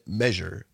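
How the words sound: It is said with the widespread common pronunciation. This is how most people say it. "I know most people say measure"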